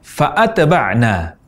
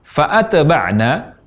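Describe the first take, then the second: The two takes are said the same way.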